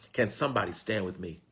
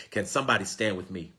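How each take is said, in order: Both takes have the same delivery.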